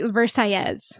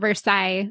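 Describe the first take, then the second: First: It is pronounced the Spanish way, ll as y. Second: It is pronounced the French way. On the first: "pronounce it the double L's as if you were speaking Spanish. As a y" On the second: "like you would say in French"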